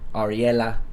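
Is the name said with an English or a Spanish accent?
Spanish. The name is said with a Spanish accent. This is how Spanish speakers say it. "the Spanish accent would be Ariella"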